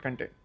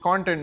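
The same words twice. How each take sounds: First: The stress is on the second syllable. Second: The stress is on the first syllable. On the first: It means satisfaction. The speaker calls it wrong. "not content. Content is satisfaction" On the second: It means written material. The speaker calls it right. "it is content"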